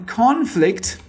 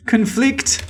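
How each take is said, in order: First: Conflict stressed on the first syllable, CON-flict; noun conflict. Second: Conflict stressed on the second syllable, con-FLICT; verb conflict. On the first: Teacher showing students the noun, stressed CON-flict. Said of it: "is the noun form". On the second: Teacher showing students the verb, stressed con-FLICT. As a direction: say conflict as con-FLICT, reduced first vowel. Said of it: "is the verb form". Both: Shown as a demonstration.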